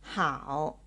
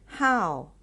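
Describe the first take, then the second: First: The syllable hao has the third tone. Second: The syllable hao has the fourth tone. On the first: "pronounced as the third tone" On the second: "as the fourth tone"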